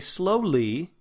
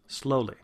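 First: The word ends in a tense ee sound. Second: The word ends in a relaxed ih sound. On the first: "that is an E sound" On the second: "That was an I"

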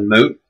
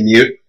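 First: The word is said with a plain 'moo' sound. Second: The word is said with a 'myoo' sound. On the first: The speaker calls it right. "instead of moot" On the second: The speaker calls it wrong. "all y'all that say mute instead of moot"

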